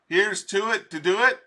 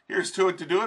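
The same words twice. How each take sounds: First: It is said at an ordinary pace. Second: It is said quickly.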